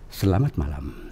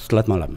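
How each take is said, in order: First: Every sound of each word is clearly articulated. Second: The words are slurred and run together. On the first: The speaker calls it right. "Itu itu be- benar" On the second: The speaker calls it wrong. "itu salah"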